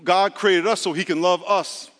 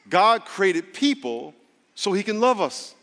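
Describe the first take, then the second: First: It is said at a normal pace. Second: It is said very slowly with pauses.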